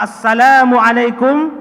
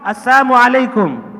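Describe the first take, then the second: First: The greeting includes the 'l' sound: as-salamu. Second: The greeting drops the 'l' sound: as-samu. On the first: It wishes peace upon the listener. The speaker calls it right. "Yang pertama" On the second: It wishes death upon the listener. The speaker calls it wrong. "yang kedua ... tidak ada lam alifnya"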